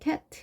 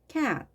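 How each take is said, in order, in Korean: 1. 모음을 평평하고 약하게 발음합니다. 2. 모음을 강하고 힘차게 발음합니다. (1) "그냥 단순히 cat 이게 아니고" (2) "뭔가 좀 더 세게 발음을 해주셔야 되겠죠"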